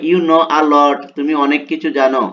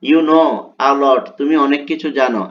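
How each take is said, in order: No difference in how they are said.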